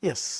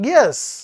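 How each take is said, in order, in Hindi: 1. "yes" उदासीन और अनिच्छुक लगता है। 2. "yes" उत्साही, रुचिपूर्ण या विचारशील लगता है। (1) "an answer which shows I'm not much interested, but I have to say yes" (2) "either I'm very much excited or I'm thinking about it"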